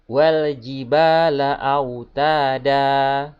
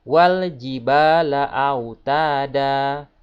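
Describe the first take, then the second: Both takes have the same delivery.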